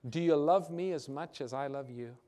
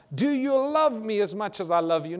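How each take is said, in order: First: Said in the usual way. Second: Higher and louder, pressing; urgent pleading Jesus. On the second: Acted. Jesus pressing his question on the believers, louder and urgent. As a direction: lean in and press the question hard.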